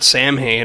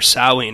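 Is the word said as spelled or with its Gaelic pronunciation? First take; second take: as spelled; Gaelic. First: The word is read out letter by letter, as spelled. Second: The word has its Gaelic pronunciation, not its spelling. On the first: "he wrote Samhain" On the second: "or Samhain as it's pronounced"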